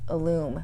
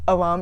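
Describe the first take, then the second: First: The name begins with an 'ill' sound. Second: The name begins with an 'uh' sound. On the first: The speaker calls it right. "It's Illum Life" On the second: The speaker calls it wrong. "I know people say alum. It's not alum"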